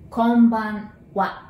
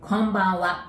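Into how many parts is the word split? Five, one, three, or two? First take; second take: two; one. First: The word is split into two separate parts. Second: The word is said smoothly without any break. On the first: "let's divide it into two" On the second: "In one shot"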